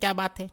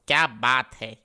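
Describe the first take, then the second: First: It sounds like a puzzled question about something. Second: It sounds like admiring praise, not a question. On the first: The speaker is asking what the matter is. "मैंने ये कहा ही नहीं क्या बात है।" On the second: The speaker is praising how good something looks. "इस type से थोड़ा।"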